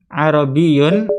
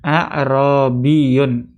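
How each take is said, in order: First: "arabiyun" stretched slowly; slow model word. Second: "Arabiyun" stretched out very slowly; very slow model word. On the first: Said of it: "Nah, arabi". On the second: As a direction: say "Arabiyun" syllable by syllable. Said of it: "ada hamzahnya di depannya". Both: Shown as a demonstration.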